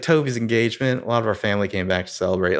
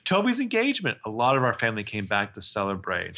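First: Quick imitated Southern accent. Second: Put-on Southern accent. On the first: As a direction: mimic a Southern US accent, moving briskly. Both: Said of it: "like, a Southern accent for some reason".

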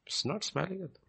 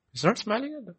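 First: Much softer, still stressing not; softer repeat. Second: Not hit hard and high; stress on not. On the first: Preacher repeating the line, hushed and softer. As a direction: drop the voice for He's not smiling at them. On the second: Preacher to congregation, stress on not. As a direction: lean on the word not in He's not smiling. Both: Shown as a demonstration.

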